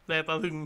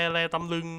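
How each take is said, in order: First: แลตะลึง said properly with a short ตะ; softly recited correction, แลตะลึง; corrected. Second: แลตำลึง said with ตำ for ตะ; softly recited slip, แลตำลึง; mispronounced. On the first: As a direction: fix it to แลตะลึง, clearly. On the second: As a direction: slip out แลตำลึง, the wrong word. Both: Shown as a demonstration.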